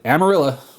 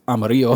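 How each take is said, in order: First: The name is said with an English-style pronunciation. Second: The name is said with a Spanish-style pronunciation. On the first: This is how most local people say it. The speaker calls it wrong. "But everybody's" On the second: This is how the name is meant to sound. The speaker calls it right. "Is what it's supposed to be"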